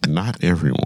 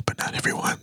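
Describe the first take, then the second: First: Said in the usual way. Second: Breathy unvoiced whisper. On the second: Shown as a demonstration. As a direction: drop to a secret whisper. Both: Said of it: "I'm gonna try to whisper".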